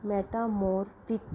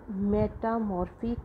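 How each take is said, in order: First: Slow "metamorphic", final "fic" stressed. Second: "metamorphic" slowly, with the end "fic" given weight; stress on fic. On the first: Teacher repeating the word for the class, slow with stress on fic. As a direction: stretch it out, hit "fic". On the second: Teacher showing the class the final-syllable stress, slowly. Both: Shown as a demonstration. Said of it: "we have put the stress on fic".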